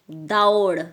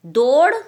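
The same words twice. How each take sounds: First: "दौड़" falling, with gliding au, as daud; au sound. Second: "दौड़" loud and rising, as dod; wrong o sound. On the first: Teacher correcting pupils, "दौड़" with full au. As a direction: open the vowel of "दौड़" from a to u. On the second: Teacher showing the mistake, "दौड़" as loud dod. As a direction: say "दौड़" with plain ओ, loudly. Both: Shown as a demonstration. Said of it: "बोलते ना दौड़".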